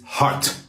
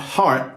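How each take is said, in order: First: The T is said hard and crisp. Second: The T is said softly. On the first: The speaker calls it right. "toughen up that T" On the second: The speaker calls it wrong. "so it's not heart"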